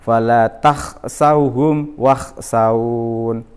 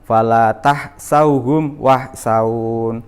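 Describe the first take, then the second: First: It uses a rough kh sound from the throat. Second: It uses a light, plain h sound. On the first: The speaker calls it right. "harus keluar dari tenggorokan ... yang benar" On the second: The speaker calls it wrong.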